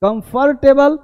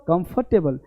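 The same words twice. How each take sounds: First: कंफर्टेबल high, with sounded "r" and "tay"; wrong pronunciation. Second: कंफर्टेबल reduced, no "r", lower and softer; correct pronunciation. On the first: Teacher mimics the mistake for learners, overpronounced. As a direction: stress the R in कंफर्टेबल, voice rising. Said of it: "रा नहीं बोलना". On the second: Teacher answers with the right form, corrected. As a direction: say कंफर्टेबल as "kumf-tebal", dropping softly. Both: Shown as a demonstration.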